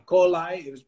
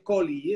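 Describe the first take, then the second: First: The final vowel sounds like 'eye'. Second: The final vowel sounds like 'ee'. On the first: This is the American way of saying it. "la I la pronuncia como I" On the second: This is the speaker's own way of saying it. "para mí es coli"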